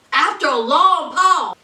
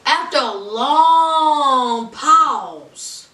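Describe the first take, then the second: First: Said in the usual way. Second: LONG stretched out very slowly; long held on and on; drawn-out LONG. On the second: Retold or imitated. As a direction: drag the word long way out for suspense. Dragging out the word long.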